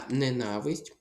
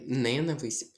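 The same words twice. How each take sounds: First: «ненависть» stressed on NA; stress on second syllable. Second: Slow «ненависть» stressed on the first syllable; wrong-stress example. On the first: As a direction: lean on «на» in «ненависть». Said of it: "Наголос падає на другий склад". («ненависть» з наголосом на «на») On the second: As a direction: hit the opening NE of «ненависть». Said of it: "Не ненависть". (повільне «ненависть» з наголосом на перше «не») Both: Shown as a demonstration.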